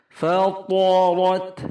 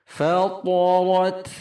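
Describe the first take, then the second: The two takes are said the same way.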